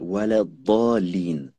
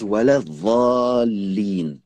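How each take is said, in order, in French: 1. Le dernier mot commence par un d lourd. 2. Le dernier mot commence par un son type th. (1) "Regardez ici la lettre Dad" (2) "Ils prononcent pas Dad, ils prononcent Va"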